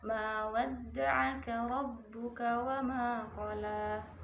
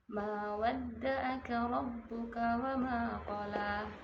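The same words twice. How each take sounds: First: The consonant in 'wadda'aka' is a pharyngeal sound. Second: The consonant in 'wadda'aka' is a plain glottal stop. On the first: The speaker calls it right. "bacaan yang benar adalah" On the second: The speaker calls it wrong. "sehingga bacaan tersebut adalah bacaan yang salah"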